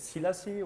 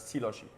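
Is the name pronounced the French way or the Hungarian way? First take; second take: French; Hungarian. First: The surname is pronounced in a French manner. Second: The surname is pronounced in a Hungarian manner. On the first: "the French way" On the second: "the Hungarian way"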